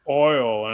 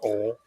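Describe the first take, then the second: First: The vowel glides fully from 'oh' to 'ee'. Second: The vowel is flattened into a single sound. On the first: This is how outsiders say it. "We don't put uh, oil in our cars" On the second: This is how locals say it. "It's oil"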